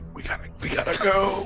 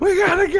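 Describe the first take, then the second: First: The words are whispered quietly. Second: The words are shouted loudly. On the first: The message is meant to stay secret. "I whisper to Adros" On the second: There is no need to stay secret. "you can just scream it"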